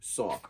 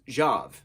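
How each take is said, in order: First: The name begins with an S sound. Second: The name begins with a J sound. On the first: The speaker calls it right. "X O V is pronounced saw" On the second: The speaker calls it wrong. "X O V would be my language, Jav"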